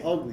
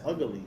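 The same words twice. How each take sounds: First: The word is said the ordinary way. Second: An extra vowel sound is inserted in the word. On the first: "She didn't say ugly though" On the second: "Like she put a vowel in there"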